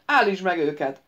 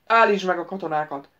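First: Commanding, louder order. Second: Loud, gruff order; growled command. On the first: Xera orders the wizard to stop the soldiers: loud command. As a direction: bark the order to halt them. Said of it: "parancsoltak Xera". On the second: The prince growls at the wizard: loud gruff command. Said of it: "mordult Szajon". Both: Acted.

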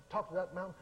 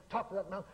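No difference in how they are said.

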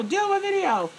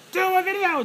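First: Much higher, pleading mock fan voice, repeating the plea; begging fans. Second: Much higher, pleading mock fan voice; begging fans. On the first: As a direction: keep the high eager begging going. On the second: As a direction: squeal it up high like eager fans begging. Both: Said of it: "my Facebook fam who'd be like".

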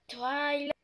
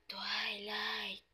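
First: Said in the usual way. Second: Spooky whisper of the name. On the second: Acted. The ghost calls Twilight from the dark in a spooky whisper. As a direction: breathe the name like a hidden ghost.

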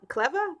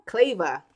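First: "Cleva?" tried as KLEV-er with a high questioning rise; unsure name try. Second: "Cleva." said as KLAY-va, falling and sure; settled name. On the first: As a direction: test out "Cleva" as KLEV-er, asking. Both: Shown as a demonstration. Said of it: "see if I'm gonna pronounce this right".

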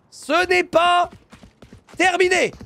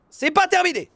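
First: Slow, higher, every syllable stretched; slow stressed "Ce n'est pas terminé"; drawn-out emphasis. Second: Said in the usual way. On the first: Real, not acted. Repeats slowly for emphasis.

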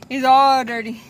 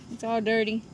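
First: "all" punched louder, the phrase much louder; louder repeat leaning on "all"; stress on all. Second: Said in the usual way. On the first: Real, not acted. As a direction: insist that it's ALL dirty.

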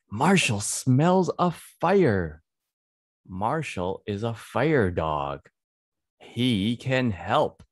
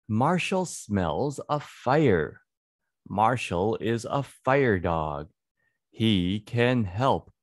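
Both takes have the same delivery.

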